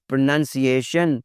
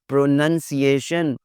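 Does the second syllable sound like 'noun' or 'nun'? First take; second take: nun; nun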